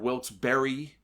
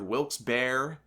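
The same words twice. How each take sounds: First: The second part sounds like the word berry. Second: The second part sounds like the word bear. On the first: "Animal or fruit?" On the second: "Animal or fruit?"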